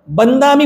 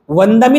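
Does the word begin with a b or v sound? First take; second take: b sound; v sound. First: The word begins with a b sound. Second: The word begins with a v sound. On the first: "ते व चा उच्चार ब करतात" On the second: "वंदामी नाही म्हणत"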